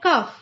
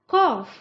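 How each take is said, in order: First: The vowel is short, like in 'cuff'. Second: The vowel is open, like in 'coff'. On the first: The speaker calls it wrong. "लोग इसे pronounce करते हैं कफ" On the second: The speaker calls it right. "इसका सही तरीका है बोलने का कॉफ"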